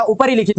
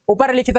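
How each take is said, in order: First: ऊपरी लिखित with ri in the middle; added i. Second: ऊपर लिखित with bare r; missing i. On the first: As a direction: say ऊपरी लिखित as upari-likhit. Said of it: "होता है". (ऊपरी लिखित, रि में इ) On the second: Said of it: "नहीं होता". (ऊपर लिखित, र बिना इ) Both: Shown as a demonstration.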